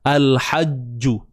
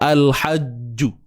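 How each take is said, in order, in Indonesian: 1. Bunyi j terakhir diikuti vokal u. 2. Bunyi j terakhir diikuti vokal u.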